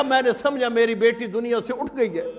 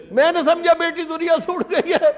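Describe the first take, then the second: First: Grieving. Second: Raised, swelling lament; the father's grief breaking out; anguished repeat. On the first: Father fears daughter dead. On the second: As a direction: lift the repeat into open anguish. Father repeats his fear. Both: Retold or imitated.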